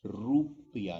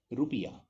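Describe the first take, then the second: First: रुपया with a drawn-out first syllable; long vowel. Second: रुपया with a short u in रु; quick, clipped रु in रुपया; short vowel. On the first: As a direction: slowly stretch the रु of रुपया. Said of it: "रुपया नहीं". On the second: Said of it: "short होगा". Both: Shown as a demonstration.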